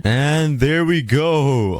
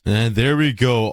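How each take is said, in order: First: Slow, stretched and higher "And there we go"; drawn out. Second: Said in the usual way. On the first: Real, not acted. Finishing the build, drawling "And there we go" slowly. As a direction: savour each word of "And there we go" slowly.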